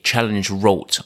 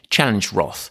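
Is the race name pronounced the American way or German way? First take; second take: German; American. First: The name is said with a German pronunciation. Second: The name is said with an American pronunciation.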